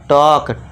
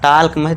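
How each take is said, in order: First: The word is said with a silent L. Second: The word is said with an audible L. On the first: The speaker calls it right. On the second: The speaker calls it wrong. "टाल्क नहीं पढ़ना, टाल्क नहीं, गलत हो जाएगा"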